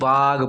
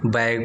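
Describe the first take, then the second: First: The vowel is a long open 'aa' sound. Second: The vowel is a front 'ae' sound. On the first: This is how it would be read in pure Hindi. "शुद्ध हिंदी में पढ़ोगे तो क्या पढ़ोगे, इसे बाग पढ़ोगे" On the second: This is how it would be read in English. "English तौर पर क्या पढ़ोगे, इसे बैग पढ़ोगे"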